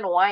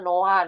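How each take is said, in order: First: The h sound in the middle is dropped. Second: The h sound in the middle is pronounced.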